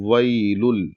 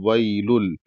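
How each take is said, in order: The two takes are said the same way.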